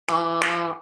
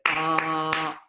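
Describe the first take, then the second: First: The vowel is held for a longer time. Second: The vowel is held for a very long time. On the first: "longer breath" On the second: "very long breath"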